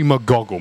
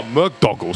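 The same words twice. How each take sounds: First: "McGoggle" with a g opening the middle syllable; mispronounced name. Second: "McDoggle" with a d opening the middle syllable; corrected name. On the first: Host introducing the character gets the name wrong, "McGoggle" with a g. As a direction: say "McGoggle", a g in place of the d. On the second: Host corrects himself after the guest, "McDoggle" with a d. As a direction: say "McDoggle", a d in place of the g. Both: Real, not acted.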